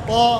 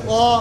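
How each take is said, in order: The two takes are said the same way.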